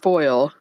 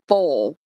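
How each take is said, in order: First: The word is said in a standard accent. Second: The word is said in a Southern Texas accent. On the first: "some people that are normal and say it right is foil" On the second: "people in other states, southern states, and up north in Texas that say foal"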